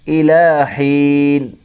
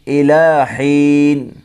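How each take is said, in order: Both takes have the same delivery.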